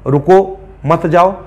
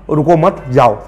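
First: रुको, then a pause, then मत जाओ run together; pause after रुको. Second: रुको मत run together, a pause, then जाओ; pause after मत. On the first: Teacher showing how punctuation changes meaning, pausing after रुको. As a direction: break after रुको, keep मत joined to जाओ. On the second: Teacher showing the sense change, pausing between मत and जाओ. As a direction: join मत to रुको, break before जाओ. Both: Shown as a demonstration. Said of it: "sense change हो जाता है".

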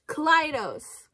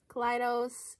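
First: Kaleidos drawn out slowly, higher and louder; careful pronunciation. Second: Said in the usual way. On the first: Shown as a demonstration. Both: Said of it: "Is it Kaleido or Kaleidos?".

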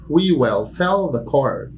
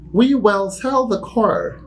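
First: Slow repetition; slow repeat. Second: Slow and high, "we" stressed; slow model sentence. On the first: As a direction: say it again slowly. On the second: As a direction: dictate it slowly. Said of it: "teacher demo". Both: Shown as a demonstration.

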